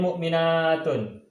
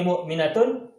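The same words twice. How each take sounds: First: The vowel before -tun is long. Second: The vowel before -tun is short. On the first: It refers to many believing women. "kalau mukminatun banyak mukminah" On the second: It refers to one believing woman. "Mukminatun satu orang mukminah"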